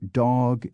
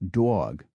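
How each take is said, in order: First: The vowel is said short and plain. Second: The vowel is drawn out and lengthened.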